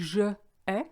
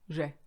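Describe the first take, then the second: First: The vowel of je is kept, giving two syllables. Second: The vowel of je is dropped, giving one syllable. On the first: The speaker calls it wrong. "It should be je ai" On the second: The speaker calls it right. "the e of je disappears"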